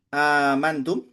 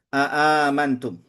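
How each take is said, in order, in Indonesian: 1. Kata itu diawali dengan satu vokal biasa. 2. Kata itu diawali dengan hamzah tambahan.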